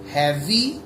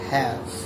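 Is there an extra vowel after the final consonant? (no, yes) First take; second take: yes; no. First: An extra vowel sound follows the final consonant. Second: The word ends cleanly on the final consonant. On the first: The speaker calls it wrong. "instead of saying heavy" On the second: The speaker calls it right. "we got to say have"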